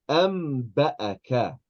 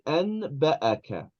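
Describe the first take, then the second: First: An m sound comes before the b. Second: An n sound comes before the b. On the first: This is the Quran recitation rule. "Allah said am ba'aka" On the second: This is ordinary Arabic, not Quran recitation. "If we were not reading the Quran, then we would say an ba'aka"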